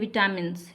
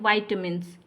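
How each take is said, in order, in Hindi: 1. पहले अक्षर में छोटा 'i' स्वर है। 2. पहले अक्षर में 'eye' स्वर है। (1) "कुछ लोग क्या करते हैं कि इसको कहते हैं विटामिन्स, ये सही प्रोनाउंसिएशन नहीं है" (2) "इसको बोलते हैं वाइटामिन्स"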